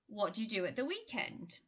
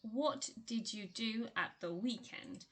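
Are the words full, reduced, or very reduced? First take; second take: reduced; full. First: The small words are weakened and run together. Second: Every word is pronounced fully and clearly. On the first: "when you hear it spoken, ... you would probably hear" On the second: "you read it as"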